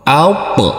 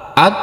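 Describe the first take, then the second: First: The final consonant is released with a bouncing echo. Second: The final consonant is cut off flat without echo. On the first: The speaker calls it right. "Harus kita pantulkan" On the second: The speaker calls it wrong. "tidak boleh"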